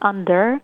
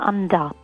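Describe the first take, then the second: First: The final r sound is clearly pronounced. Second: The final r sound is dropped. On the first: "الأمريكاني اللي هي الآر اللي بيسموها rolled" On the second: "في الأسترالي بتبقى"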